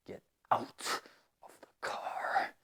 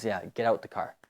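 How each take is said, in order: First: Mock furious girlfriend hissing Get out of the car; a hint of a cold, quiet angry girlfriend; angry girlfriend, whispered. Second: Said in the usual way. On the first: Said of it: "la novia es muy enojada". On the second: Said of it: "solo decimos".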